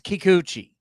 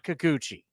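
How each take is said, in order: First: The first syllable sounds like 'key'. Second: The first syllable sounds like 'ka'. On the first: The speaker calls it right. "It's Kikuchi" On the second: The speaker calls it wrong. "It's not Kikuchi"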